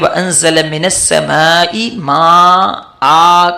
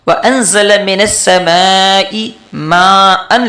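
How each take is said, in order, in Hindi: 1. आख़िरी शब्द लंबे स्वर से ख़त्म होता है। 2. आख़िरी शब्द n की आवाज़ से ख़त्म होता है। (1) "एक ज़बर को ख़त्म करेंगे" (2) "माअन लिखा है"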